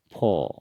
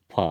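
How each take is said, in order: First: "फो" with a rounded o; Assamese pronunciation. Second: "फ" with an open a vowel; Hindi pronunciation. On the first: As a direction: say "फो" the Assamese way, o instead of a. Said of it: "असमिया में". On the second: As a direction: say "फ" the Hindi way, ending in a. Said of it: "Hindi में फ". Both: Shown as a demonstration.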